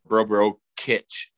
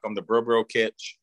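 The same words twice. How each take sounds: First: "Bro Bro Kitch" said slowly, every syllable clear; careful slow name. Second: Said in the usual way. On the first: Shown as a demonstration. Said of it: "K I T C H". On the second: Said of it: "or Bro Bro Kitch".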